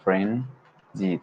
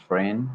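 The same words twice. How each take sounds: First: Frenzied, said slowly and fully as FREN-zied with both syllables clear; frenzied, drawn out and spelled in sound; careful model word. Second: Friend, said short with no zi syllable; Friend, cut off where frenzied should go on; clipped wrong try. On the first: Learner models the corrected frenzied, deliberately. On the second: A learner slips and says Friend, in place of the longer word. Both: Shown as a demonstration. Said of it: "like this".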